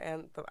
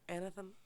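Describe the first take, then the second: First: The word is said with two syllables. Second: The word is said with three syllables. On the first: This is how everyone else says it. "I think everybody just says Anthem" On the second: This is how the reader pronounced it in her head. "Maybe I'm wrong"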